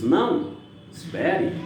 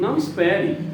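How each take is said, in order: First: There is a pause after não. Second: There is no pause after não. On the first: Wait, I want to say something too. "o uso da vírgula, tá? Para destacar, e a entonação" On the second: You do not need to wait. "muda totalmente o sentido"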